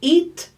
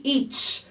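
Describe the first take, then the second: First: Eat with a ti sound added at the end; Brazilian-style final T. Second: Eat ending in a clean T with no extra vowel; clean final T. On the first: Fonoaudióloga imitando o T com ti no final. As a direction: say eat as eatchi, with an extra vowel. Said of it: "é diferente da gente falar". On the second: Fonoaudióloga mostrando o T final limpo em eat. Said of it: "Ele é um som limpo". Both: Shown as a demonstration.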